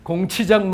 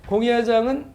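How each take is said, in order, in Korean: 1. 가운데 음절은 'chi'로 발음합니다. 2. 가운데 음절은 'ya'로 발음합니다.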